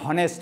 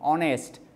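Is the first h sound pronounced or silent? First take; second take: pronounced; silent. First: The word begins with an h sound. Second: The word begins without an h sound. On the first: The speaker calls it wrong. "সেটাকে তুমি হনেস্ট বলতে পারো না" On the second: The speaker calls it right. "Silent হয়ে যায় শব্দ"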